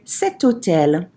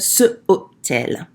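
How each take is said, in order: First: A T sound links into hôtel. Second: There is a vowel gap before hôtel. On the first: The speaker calls it right. "we're going to say" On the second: The speaker calls it wrong. "ce hôtel is not pretty"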